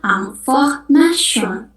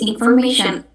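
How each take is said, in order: First: It is pronounced as French, ending in 'syon'. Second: It is pronounced as English, ending in 'shun'. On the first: "kalau bahasa Prancis ya kita bacanya" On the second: "dalam bahasa Inggris"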